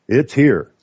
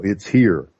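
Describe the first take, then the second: First: It's here said louder and firmer; emphatic repeat. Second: Said in the usual way. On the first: Real, not acted. Warning listeners the fight is here, emphatic. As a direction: land It's here hard. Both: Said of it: "repeated for emphasis".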